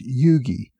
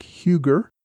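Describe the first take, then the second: First: Yugi as YOO-gee, silent H and no final R; Yugi, slowly, as YOO-gee; correct surname pronunciation. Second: Huger as HYOO-gur, with an H and hard G; mispronounced Huger. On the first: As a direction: say Yugi with a hard G and "ee" ending. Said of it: "his last name is actually pronounced". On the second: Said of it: "one correction I have from last week, I referred to". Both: Shown as a demonstration.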